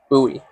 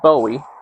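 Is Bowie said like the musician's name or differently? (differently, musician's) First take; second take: differently; musician's. First: It is said unlike the musician's surname. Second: It is said like the musician's surname. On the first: It refers to the knife's namesake. "the actual pronunciation of the name is Bowie" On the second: It refers to the musician. "that's [name], the musician"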